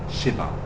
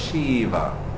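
First: The first vowel is short. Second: The first vowel is long. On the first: The speaker calls it right. "The Sh just joins with the V because it's a short E" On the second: The speaker calls it wrong. "If it's long E, then it's Lord Shiva"

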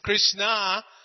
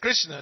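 First: The final vowel is long. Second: The final vowel is short. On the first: It names Draupadi. "when that last day is long, it's Krishna" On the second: It names the Supreme Personality of Godhead. "N dot under, A, that's Krishna"

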